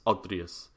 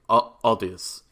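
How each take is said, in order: First: The name is said with an R sound. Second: The name is said with an L sound. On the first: "The R is Aldrius" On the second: "I'll just stick with Aldius"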